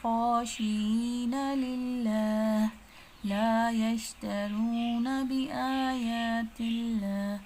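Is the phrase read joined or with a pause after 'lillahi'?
paused. It stops after 'lillahi', then resumes at 'la'. The speaker calls it wrong. "तो ये तरीका जो है गलत है।"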